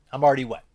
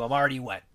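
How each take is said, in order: First: The same line again, punched louder for the joke; louder repeat. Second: Said in the usual way. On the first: Retold or imitated. Vic Morrow repeating the line louder, mock emphatic. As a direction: say it again with a bigger push. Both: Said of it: "He's like".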